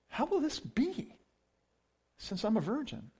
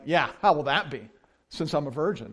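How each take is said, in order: First: It sounds uncertain and hesitant. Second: It sounds mocking and sarcastic.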